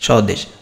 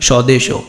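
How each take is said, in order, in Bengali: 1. শব্দটি sh ব্যঞ্জন দিয়ে শেষ হয়। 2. শব্দটির শেষে একটি অতিরিক্ত o স্বরধ্বনি যোগ হয়।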